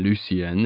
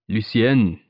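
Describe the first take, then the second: First: The name is said with an English pronunciation. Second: The name is said with a French pronunciation. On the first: "that's the English pronunciation" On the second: "He said it perfectly, too, with the half-swallowed softness of the final syllable"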